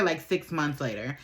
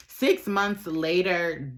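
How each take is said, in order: First: Said in the usual way. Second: Six months later, drawn out slowly, word by word; slow it right down on Six months later; slow dramatic restatement. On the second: Shown as a demonstration.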